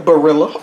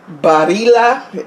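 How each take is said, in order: First: The name is said in a casual form. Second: The name is said in its careful form. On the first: This is how the speaker habitually says it. The speaker calls it wrong. "but I'm gonna say Barilla" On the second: This is how the name should be said. The speaker calls it right. "I think, the correct way to pronounce it"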